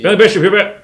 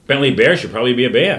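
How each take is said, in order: First: It is said even more quickly, words blurring. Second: It is said quickly.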